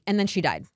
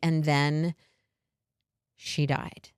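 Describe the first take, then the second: First: It is said quickly without any pause. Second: It is said slowly, with a held pause.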